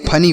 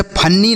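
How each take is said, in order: First: फनी with one light n; single short n. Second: फन्नी with a held, doubled n; wrong doubled n. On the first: Teacher gives children the correct reading, फनी with a single n. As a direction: say फनी without doubling the n. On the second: Teacher shows children the misreading to avoid, फन्नी with doubled n. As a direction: stretch the middle n in फन्नी. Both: Shown as a demonstration. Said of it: "इसे फन्नी नहीं, फनी पढ़ेंगे".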